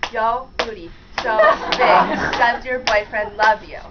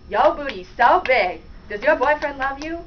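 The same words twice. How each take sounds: First: It is said slowly, word by word. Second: It is said at normal speed.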